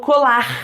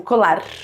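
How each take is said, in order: First: The r is a breathy sound from the throat. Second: The r is a quick tongue tap. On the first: "o R é chamado de glotal" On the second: "que é o som de tep, é a língua batendo na boca"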